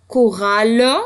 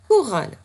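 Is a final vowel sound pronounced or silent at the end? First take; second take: pronounced; silent. First: A final e vowel is sounded after the l. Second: The word ends on the l, no final vowel. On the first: "si vraiment tu as l'accent bien marqué" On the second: "Cinq sons"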